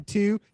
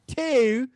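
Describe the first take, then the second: First: Said in the usual way. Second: "two" loud, high, with fronted Baltimore vowel; Baltimore accent. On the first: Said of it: "say two". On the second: Shown as a demonstration. Demonstrating how locals say "two", exaggerated Baltimore accent. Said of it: "literally say that shit".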